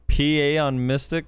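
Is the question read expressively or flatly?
flatly. It is read flatly, without much inflection.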